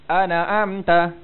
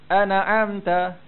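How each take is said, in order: Both takes have the same delivery.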